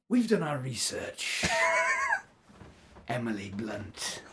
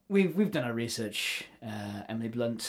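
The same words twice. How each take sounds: First: It is said in an exaggeratedly evil villain voice. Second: It is said in a moderately menacing villain voice. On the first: "Can you make it more evil? I'll do my best" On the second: "In the voice of. Darth Maul"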